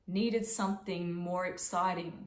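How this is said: The pitch moves up and down across the phrase. "I'm using different pitches"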